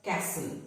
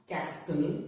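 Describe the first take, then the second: First: "castle" as kas-ul; "castle" with no T after the S; silent T. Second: "castle" wrongly as kas-tul; T sounded. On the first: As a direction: drop the T from "castle". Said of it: "but castle". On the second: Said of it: "It is not". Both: Shown as a demonstration.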